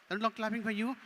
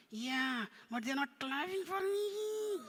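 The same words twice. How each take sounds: First: Said in the usual way. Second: High, drawn-out puppet whine; complaining puppet. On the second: Pretend. Puppet complains about missing applause.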